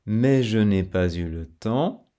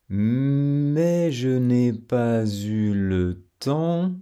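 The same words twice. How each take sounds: First: Said in the usual way. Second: Slow, rising then falling melody on "Mais je n'ai pas eu le temps"; very slow melodic line; melody demo. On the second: Shown as a demonstration. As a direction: stretch "Mais" and let the tune carry. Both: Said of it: "entendre la mélodie".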